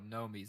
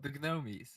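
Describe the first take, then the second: First: The initial G is silent. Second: The initial G sound is pronounced. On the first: The speaker calls it right. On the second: The speaker calls it wrong.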